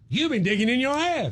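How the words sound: It is said in a motivational tone.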